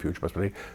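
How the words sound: The phrase is whispered softly. The words are arriving as they come. "I whisper the words as they come"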